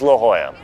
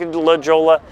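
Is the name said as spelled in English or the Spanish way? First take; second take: Spanish way; as spelled. First: The name is said with its Spanish pronunciation. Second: The name is said as its English spelling suggests. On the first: The speaker calls it right. "It's La Jolla" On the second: The speaker calls it wrong. "It looks like La Jolla. It's not"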